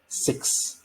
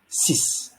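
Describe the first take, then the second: First: The word ends with a ks sound. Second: The word ends with a plain s sound. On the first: The speaker calls it wrong. "not pronounced as six" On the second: The speaker calls it right. "rather like S I S"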